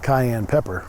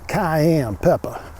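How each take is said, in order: First: It is said in a plain, ordinary accent. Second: It is said in a put-on Cajun accent.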